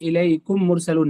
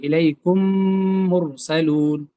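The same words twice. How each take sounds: First: The two m sounds are pronounced separately. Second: The two m sounds merge with a nasal hum. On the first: The speaker calls it wrong. "कुम मुर दो बार नहीं कहेंगे" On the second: The speaker calls it right. "मिला करके गुन्ना के साथ पढ़ेंगे"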